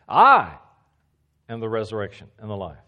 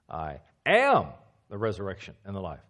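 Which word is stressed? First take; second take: I; am. First: The word "I" carries the main stress. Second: The word "am" carries the main stress. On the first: Only Jesus is the resurrection and the life. "it would look like this. ... Jesus alone is the resurrection and the life" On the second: Jesus is the resurrection and the life today. "Present tense, right now"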